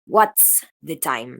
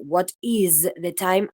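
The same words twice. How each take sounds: First: Slow, lower "what's the time", voiceless ts on "what's"; contracted form. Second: Slow "what is the time" with IS drawn out and voiced as z; full uncontracted form. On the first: Teacher showing how the phoneme changed, slow contracted "what's the time". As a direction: say WHAT'S as one syllable, then "the time". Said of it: "Vieron cómo cambió todo el fonema". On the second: Teacher showing the example before the change, "what is the time" slowly in full. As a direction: stress the separate "is" in "what is the time". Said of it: "paso de". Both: Shown as a demonstration.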